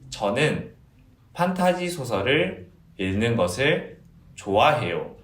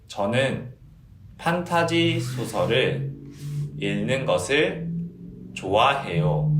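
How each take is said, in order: First: The sentence is spoken quickly. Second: The sentence is spoken at a normal pace.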